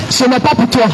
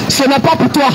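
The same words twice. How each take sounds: The two takes are said the same way.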